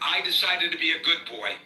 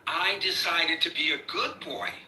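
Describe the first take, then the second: First: It is said in a plain, straight tone. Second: It is said with a mocking, sarcastic tone. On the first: This is how it was actually said. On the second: The speaker is mocking the statement.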